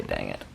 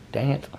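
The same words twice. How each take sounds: First: Much lower, softer mom-style "Dang it"; a hint of her mother sighing "Dang it"; imitating mom. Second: Said in the usual way. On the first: Daughter quoting her mom's "Dang it", low and soft. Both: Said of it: "My mom used to always say".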